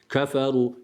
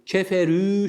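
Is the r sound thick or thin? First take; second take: thick; thin. First: The r sound is thick and heavy. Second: The r sound is thin and light. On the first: The speaker calls it right. "Ra kalın" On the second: The speaker calls it wrong. "şeklinde ra'yı ince okumuyoruz"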